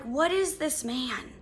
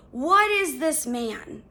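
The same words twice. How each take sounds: First: Said in the usual way. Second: "What" punched, "is this man" slowed; stress on WHAT. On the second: Shown as a demonstration. Correcting herself to friends, slowly punching "What". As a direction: lean hard on "What", then slowly. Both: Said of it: "Not even who".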